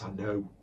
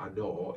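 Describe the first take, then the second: First: It is said in an unusual character voice. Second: It is said in an ordinary, plain voice. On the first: The speaker calls it right. "it's I know. It's just a very unusual way he speaks" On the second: The speaker calls it wrong. "It's not I know"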